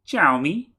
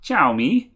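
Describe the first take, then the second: First: Xiaomi mimicked high with a big questioning rise; particular inflection. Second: Said in the usual way. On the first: Asking co-host about that inflection, Xiaomi with a high questioning rise. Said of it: "with that particular inflection".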